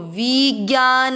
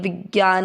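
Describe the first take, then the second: First: The first vowel is drawn out long. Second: The first vowel is kept short. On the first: The speaker calls it wrong. "देखो विज्ञान ऐसे नहीं करना है" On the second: The speaker calls it right. "वि वी छोटा है"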